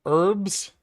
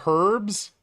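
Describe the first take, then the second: First: Herbs as "erbs", no h, questioning lift; silent h. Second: Herbs with a clear "huh" at the start; sounded h. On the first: Streamer puzzling over a word with chat, Herbs said with silent h. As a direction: drop the h from Herbs. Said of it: "are people running around saying herbs". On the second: Streamer baffled that people say it so, herbs with h sounded. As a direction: pronounce the h in herbs, incredulous question. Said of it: "With the emphasis on the huh". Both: Shown as a demonstration.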